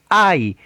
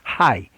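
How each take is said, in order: First: The name begins with a vowel. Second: The name begins with an h sound. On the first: This is the Spanish pronunciation. "la H en español es muda, ustedes le van a decir Ai" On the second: This is the English pronunciation. "déjenme pronunciarla en inglés"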